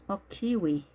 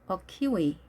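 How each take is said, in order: No difference in how they are said.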